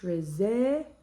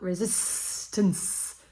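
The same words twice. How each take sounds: First: The S sounds are short and soft. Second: The S sounds are long and hissy. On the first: The speaker calls it right. "Keep those S's to a minimum" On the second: The speaker calls it wrong. "not resistance, which is what I'm getting at the moment"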